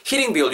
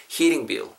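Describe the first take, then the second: First: Heating bill said quick and short; too short. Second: Heating bill with a long ee in heating; long vowel. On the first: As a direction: rush through heating bill with short vowels. (heating bill을 너무 짧게) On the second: (heating bill을 길고 자연스럽게) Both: Shown as a demonstration. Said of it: "너무 짧게 하지 마시고".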